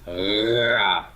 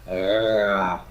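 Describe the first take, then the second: First: The consonant is a growly fricative. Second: The consonant is a growly fricative.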